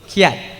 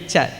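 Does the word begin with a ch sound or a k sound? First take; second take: k sound; ch sound. First: The word begins with a k sound. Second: The word begins with a ch sound. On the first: The speaker calls it wrong. "I heard someone says kiat" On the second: The speaker calls it right. "The pronunciation is actually chat"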